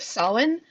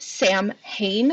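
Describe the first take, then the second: First: The name is not said as 'Sam Hain'. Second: The name is said as 'Sam Hain'. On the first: The speaker calls it right. "the correct pronunciation of Samhain" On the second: The speaker calls it wrong. "it is not Sam Hain, like so much um, of the the popular culture shows"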